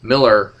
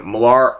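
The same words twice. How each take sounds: First: "Miller" said as "MIL-ler", stress on the first syllable; corrected name. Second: Millar said as "mə-LAR", stress on the second syllable; mispronounced name. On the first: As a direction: correct it to "Miller", rhyming with "filler". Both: Real, not acted. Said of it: "I gotta keep calling him Millar".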